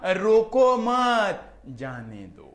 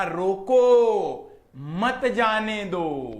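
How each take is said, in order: First: Loud, high रोको मत in one go, then drawn-out जाने दो; मत joined to रोको. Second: Long, loud रोको, a pause, then slow मत जाने दो; pause after रोको. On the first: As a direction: slowly stress रोको मत as one unit, pause before जाने दो. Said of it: "उनको लगा". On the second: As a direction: stretch रोको right out, stop, then say मत जाने दो slowly. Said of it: "मुझे बोलना था". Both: Shown as a demonstration.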